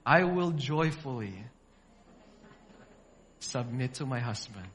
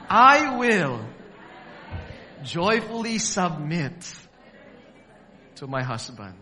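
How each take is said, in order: First: It is said plainly, without special conviction. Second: It is said with strong conviction.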